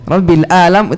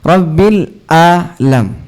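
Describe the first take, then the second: First: The last word starts with a plain vowel. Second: The last word starts with a throaty ain sound. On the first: It means 'pain'. The speaker calls it wrong. "Rabbil Alam itu sakit" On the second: It means 'the worlds'. The speaker calls it right. "Itu huruf ain"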